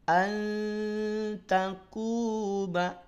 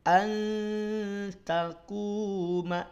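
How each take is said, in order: The two takes are said the same way.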